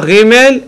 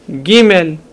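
First: The first consonant is a soft fricative. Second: The first consonant is a hard stop. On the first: The speaker calls it wrong. "ולא" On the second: The speaker calls it right. "אלא"

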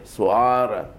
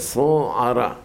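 First: The stress is on the penultimate syllable. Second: The stress is on the final syllable. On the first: The speaker calls it wrong. "אומרים אותה מלעין" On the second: The speaker calls it right. "אלא סוערה"

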